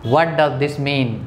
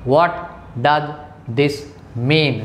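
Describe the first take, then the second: First: Slow, clear question; slow model question. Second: Each word split by pauses. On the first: Teacher showing how to ask a word's meaning slowly. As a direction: ask it slowly so learners follow. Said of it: "तो क्या कहेंगे?". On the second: Teacher dictating the question one word at a time. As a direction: pause after every word. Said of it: "Write it।". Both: Shown as a demonstration.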